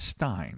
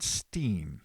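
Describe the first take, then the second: First: The vowel sounds like 'eye'. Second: The vowel sounds like 'ee'. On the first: The speaker calls it right. "but I believe it's Stein" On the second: The speaker calls it wrong. "I'm pretty sure I said Steen"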